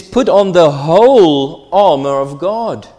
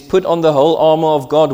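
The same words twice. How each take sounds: First: "whole" lifted and louder, falling at the end; stress on whole. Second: Quick, with "Put" punched at the start; stress on put. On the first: Preacher quoting Paul, pressing on "whole". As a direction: read scripture aloud, hitting "whole". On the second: Preacher quoting Paul again, quick and punching "Put". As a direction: read the verse fast, driving "Put". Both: Retold or imitated. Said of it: "He says".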